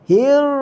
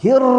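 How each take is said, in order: First: The r is barely trilled, only a slight sound. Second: The r is trilled strongly and at length. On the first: The speaker calls it right. "Saya tak bunyi getar" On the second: The speaker calls it wrong. "Itu melampau getar"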